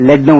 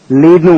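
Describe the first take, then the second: First: லெட் with a short "e", rhyming with "bed"; short-e pronunciation. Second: லீட் with a long "ee", rhyming with "need"; long-ee pronunciation. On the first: Teacher showing learners the other reading, short "e" in லெட். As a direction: say லெட்னு with the vowel of "red". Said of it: "லெட்னு உச்சரிக்கலாம்". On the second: Teacher showing learners one reading of the word, long "ee" in லீட். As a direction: say லீட்னு with the vowel of "see". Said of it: "லீட்னு உச்சரிக்கலாம்". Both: Shown as a demonstration.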